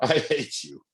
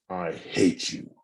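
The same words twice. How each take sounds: First: It sounds playful, with a laugh. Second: It sounds hostile and negative.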